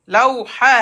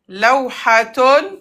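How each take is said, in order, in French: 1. Le mot se termine par un son 'ah' bref. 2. Le mot se termine par une syllabe 'tun' complète.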